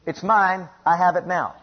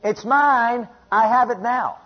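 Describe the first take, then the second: First: Said in the usual way. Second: High, insistent claim with drawn-out MINE; defiant declaration. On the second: Acted. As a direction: answer the devil back, pitched up. Defiant answer to the devil.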